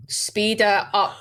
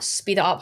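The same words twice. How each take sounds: First: Slowed right down, speed it up drawn out; slow urging. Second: Said in the usual way. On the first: Real, not acted. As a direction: drag it out to make the point.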